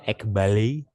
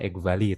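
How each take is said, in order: First: It uses a pronunciation other than modern Greek. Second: It uses the modern Greek pronunciation. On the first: "Ada yang bacanya ekbali" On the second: "saya pakai pronunciation modern Greek ya, ekvali"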